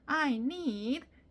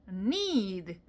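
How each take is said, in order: First: The 'I' is pronounced clearly before 'need'. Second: The 'I' is nearly swallowed before 'need'. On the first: "학교 다니는 내내 I need 이렇게 읽었어요" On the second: "need 이렇게 발음을 합니다. 에, 들릴 리가 없어요"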